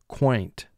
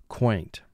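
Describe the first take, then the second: Both takes have the same delivery.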